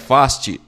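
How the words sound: The name is said in a British accent. "com sotaque britânico"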